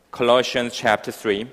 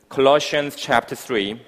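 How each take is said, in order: Both takes have the same delivery.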